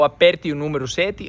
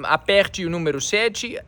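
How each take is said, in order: First: It is spoken in a northeastern Brazilian accent. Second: It is spoken in a general Brazilian accent. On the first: "aqui no Nordeste" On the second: "aqui você diria"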